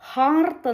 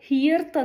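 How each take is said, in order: First: The vowel sounds like 'ar' with an r. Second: The vowel sounds like 'ear' with an r. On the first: "ഹിയർത്ത് എന്നോ ഹാർത്ത് എന്നോ ഇർ ആ ഒരു pronunciation വരാനായിട്ടുള്ള ഒരു tendency" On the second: "ഹിയർത്ത് എന്നോ ഹാർത്ത് എന്നോ ഇർ ആ ഒരു pronunciation വരാനായിട്ടുള്ള ഒരു ടെൻഡൻസി"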